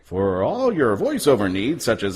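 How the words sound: It is said in an announcer voice.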